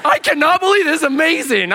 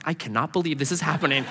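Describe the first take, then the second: First: High, loud burst of disbelief; loud amazement. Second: Quick, softer stunned aside; muted disbelief. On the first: Companion watching a waitress accept prayer, exploding in amazement. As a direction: explode in hammed-up astonishment. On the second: Companion watching a waitress accept prayer, muted disbelief. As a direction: say it quickly under your breath. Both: Retold or imitated.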